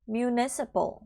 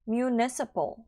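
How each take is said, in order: The two takes are said the same way.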